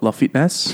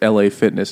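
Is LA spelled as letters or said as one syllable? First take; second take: one syllable; letters. First: LA is spoken as one syllable, la. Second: LA is spoken as two separate letters. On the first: This is a jokey personal way of saying the name. "I just call it La Fitness every time" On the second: This is the gym's real name. "it's LA Fitness"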